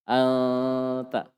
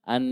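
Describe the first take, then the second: First: The n sound is hidden with light nasalization. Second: The n sound is pronounced clearly and fully. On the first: The speaker calls it right. "Rapat kan? Di makhrajnya nun" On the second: The speaker calls it wrong. "idhar padahal ih ikhfa"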